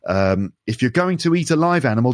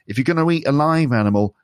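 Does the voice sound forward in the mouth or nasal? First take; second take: forward; nasal. First: The voice is placed forward in the mouth. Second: The voice is placed high and sounds nasal.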